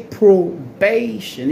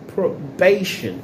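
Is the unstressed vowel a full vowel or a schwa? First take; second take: full vowel; schwa. First: The unstressed vowel is a full vowel. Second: The unstressed vowel is a weak schwa. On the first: The speaker calls it wrong. "You don't want to say probation" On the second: The speaker calls it right. "you want to say probation"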